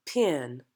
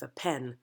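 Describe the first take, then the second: First: Pen said as pee-un with a glide; diphthong in pen. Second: Said in the usual way. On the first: Shown as a demonstration. Coach demonstrating the accent's word for actors, gliding vowel. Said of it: "we're gonna change that to". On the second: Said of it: "That's for what you write with".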